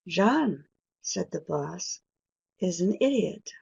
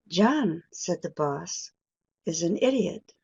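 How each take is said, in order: No difference in how they are said.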